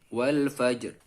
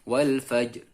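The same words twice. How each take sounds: No difference in how they are said.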